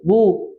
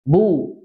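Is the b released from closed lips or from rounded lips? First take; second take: rounded lips; closed lips. First: The lips stay rounded from start to end. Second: The lips close for b, then round. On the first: The speaker calls it wrong. "Jangan mayun dari awal sampai akhir" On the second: The speaker calls it right. "huruf ba makhrajnya di sini, kedua bibir, am, nempel. Baru kemudian harokatnya"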